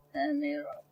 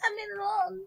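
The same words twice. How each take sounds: First: Very low, soft grumble. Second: Whiny plea. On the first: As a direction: drop the voice deep down. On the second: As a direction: beg like a whiny kid. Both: Pretend. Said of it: "I wanna run".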